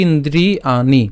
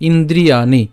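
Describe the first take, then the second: No difference in how they are said.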